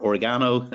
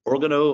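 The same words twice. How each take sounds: First: Oregano with stress on GA; second try at "Oregano", leaning on the third syllable; mispronounced place name. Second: Oregano with stress on the opening OR; mispronounced place name. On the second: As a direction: say "Oregano" as OR-gano, front-stressed. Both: Real, not acted. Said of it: "I just pronounced it wrong".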